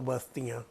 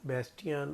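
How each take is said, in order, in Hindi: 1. यह नाम भारतीय लहजे में बोला गया है। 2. यह नाम अंग्रेज़ी लहजे में बोला गया है। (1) "अगर देसी हिंदी एक्सेंट में पढ़ो तो बस्तियाँ" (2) "उसे इंग्लिश एक्सेंट में पढ़ो तो"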